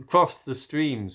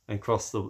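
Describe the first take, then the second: First: "crossed the streams" slow, higher, louder; dramatic emphasis. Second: Said in the usual way. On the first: Acted. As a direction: lean hard on "crossed the streams". Dramatic Ghostbusters movie reference.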